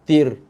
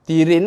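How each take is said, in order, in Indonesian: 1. Kata ini berakhir tiba-tiba pada r yang mati. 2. Kata ini berakhir dengan akhiran -rin yang berharakat. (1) "Kalau kita wakaf, huruf akhir dimatikan bacaan" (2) "Kalau kita tak nak berhenti, nak sambung ayat"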